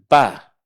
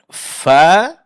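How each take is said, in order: First: The first sound is a stop with both lips. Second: The first sound is breathy, teeth on lip. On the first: The speaker calls it wrong. "menyentuhkan bibir atas dengan bibir bawah" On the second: The speaker calls it right. "sentuhkan ujung gigi seri atas dengan bibir bawah"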